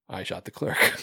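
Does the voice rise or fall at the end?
fall. It ends in a falling, flat statement tune.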